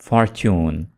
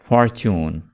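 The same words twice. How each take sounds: Both takes have the same delivery.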